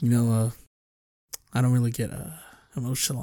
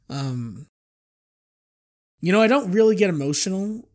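First: The voice is lower and close to the microphone. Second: The voice is at normal pitch and distance.

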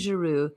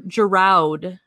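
First: The name is said with a French accent. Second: The name is said with an American accent. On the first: "That is the French version" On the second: "If you're American, that is Oliver Giroud"

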